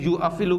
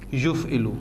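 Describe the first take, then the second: First: A glottal stop separates the first two syllables. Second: The glottal stop is dropped between those syllables. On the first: The speaker calls it wrong. "यू अफ इलू यानी अलिफ से पहले पेश जो है उसके लिए बोलनी ज़रा मुश्किल होती है" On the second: The speaker calls it right. "वो इसको बोल देगा युफ़इलू"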